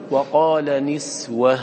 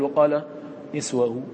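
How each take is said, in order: First: نسوة ended with a still sakin ha, drawn slowly; slow demo of the right stop on نسوة; correct pausal form. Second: نسوه stopped with a trace of a vowel on the ha; wrong pausal form. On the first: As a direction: say نسوة with a plain silent ha at the pause. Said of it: "فتقول وجها واحدا". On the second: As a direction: give نسوه a faint vowel hint at the stop, the mistaken way. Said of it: "ولا تقول". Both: Shown as a demonstration.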